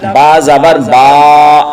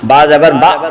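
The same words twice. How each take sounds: First: The vowel is stretched out long. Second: The vowel is cut off with a jerk. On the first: "जबर को खींच कर नहीं पढ़ना ... ये गलत है" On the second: "जबर को झटके से नहीं पढ़ना ... ये भी गलत है"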